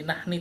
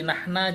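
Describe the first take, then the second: First: The word ends with an i vowel. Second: The word ends with an a vowel. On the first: "jadi nahni, tidak" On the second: "Tidak bisa jadi nahna"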